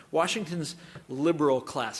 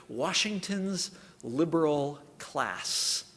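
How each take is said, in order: First: Said in the usual way. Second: Slow sneer leaning on liberal; sneering robocall. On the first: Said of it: "I like that phrase". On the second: Retold or imitated. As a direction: sneer out liberal slowly, word by word. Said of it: "sneering emphasis on the second word".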